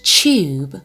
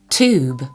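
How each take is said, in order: First: It is said with a British accent. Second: It is said with an American accent. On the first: "British tube" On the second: "American tube"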